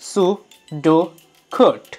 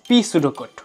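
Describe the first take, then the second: First: The initial P is silent. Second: The initial P is pronounced aloud. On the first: The speaker calls it right. "উচ্চারণটা হবে সু ডো কোট" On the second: The speaker calls it wrong. "ভুল করে ফেললাম"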